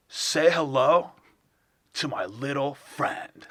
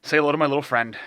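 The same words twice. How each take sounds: First: Slow, halting bad actor impression; Christopher Walken. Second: Said in the usual way. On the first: Doing a friend's failed version of a famous actor, slow halting impression. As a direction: stretch the words out with odd pauses. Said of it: "version of Christopher Walken". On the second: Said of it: "take a movie quote".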